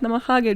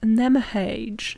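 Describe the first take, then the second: First: The word is pronounced with Japanese-style vowels. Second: The word is pronounced with English-style vowels. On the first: The speaker calls it right. "pronounce it how it's read" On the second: The speaker calls it wrong. "when British people would see this word, they would be like"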